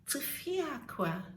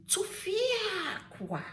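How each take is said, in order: First: Tufiakwa said quickly, without the long stretch; wrong way demonstrated. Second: TUFIAKWA with a long, high "fia", then falling; correct emphatic way. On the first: Showing viewers how not to say Tufiakwa, undrawn. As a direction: toss off Tufiakwa short and unemphatic. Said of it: "You don't say Tufiakwa". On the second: Teaching the proper Tufiakwa, long drawn-out and high. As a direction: draw out and raise the middle of Tufiakwa. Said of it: "You say Tufiakwa". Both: Shown as a demonstration.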